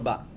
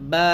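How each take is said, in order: First: The vowel is short and quick. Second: The vowel is drawn out long. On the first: "এটা হচ্ছে শুধু বা জবর বা" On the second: "টান দিতে হবে"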